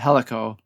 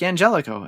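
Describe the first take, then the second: First: The name is said without an American English pronunciation. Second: The name is said with an American English pronunciation. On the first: The speaker calls it right. "basically people are just calling him Helico" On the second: The speaker calls it wrong. "the American English in me was just like Angelico"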